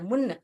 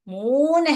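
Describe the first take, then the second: First: The vowel is short and clipped. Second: The vowel is long and drawn out. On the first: The speaker calls it wrong. "अगर मैं इसको ऐसे पढ़ूंगी, म उन्न मुन्न, मुन्न हो जाएगा" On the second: The speaker calls it right. "मून है तो मैं ये ऊ पढ़ना है"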